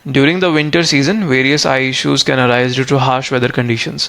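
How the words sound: It is read in one smooth, continuous flow. The speaker calls it right. "ऐसे flow में, rhythm में आपको read करना होता है"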